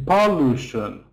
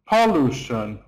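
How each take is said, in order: No difference in how they are said.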